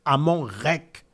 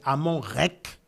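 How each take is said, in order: First: The last word ends in a k sound. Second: The same.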